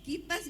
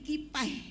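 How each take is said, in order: First: The word ends with a clear S sound. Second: The final S is replaced by an 'ee' sound.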